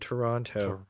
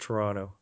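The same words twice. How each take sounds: First: The second t sound is clearly pronounced. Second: The second t sound is dropped. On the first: This is how outsiders say the name. The speaker calls it wrong. "I just said that like a total American" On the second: This is how locals say the name. The speaker calls it right. "You don't pronounce that second T"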